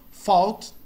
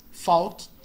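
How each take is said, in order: Both takes have the same delivery.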